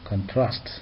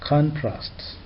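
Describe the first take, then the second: First: The stress is on the second syllable. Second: The stress is on the first syllable. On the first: It is used as a verb. "as a verb" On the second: It is used as a noun. "as a noun"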